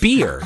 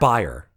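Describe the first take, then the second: First: The word rhymes with 'ear'. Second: The word rhymes with 'fire'. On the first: The speaker calls it right. "I think it's pronounced beer" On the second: The speaker calls it wrong. "not buyer"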